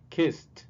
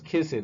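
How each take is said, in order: First: The ending is said as a plain t sound. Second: The ending is said as an extra syllable. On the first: The speaker calls it right. "Pueden escuchar la T allí" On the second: The speaker calls it wrong. "No sería jamás"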